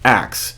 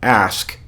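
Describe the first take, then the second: First: The word ends with a 'ks' sound. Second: The word ends with an 'sk' sound. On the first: "she pronounced the word um, ask as axe" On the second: "she pronounced the word um, ask as axe"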